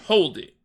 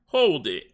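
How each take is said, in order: First: It is said with less enthusiasm. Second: It is said with great enthusiasm.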